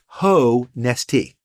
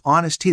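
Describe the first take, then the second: First: Ho Nest Tea broken slowly into three separate words; split as HO-NEST-TEA. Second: Said in the usual way. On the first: Shown as a demonstration. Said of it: "what I hadn't realized was". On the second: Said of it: "the way I spelled it".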